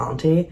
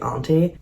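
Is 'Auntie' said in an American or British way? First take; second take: British; British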